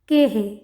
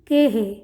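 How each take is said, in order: The two takes are said the same way.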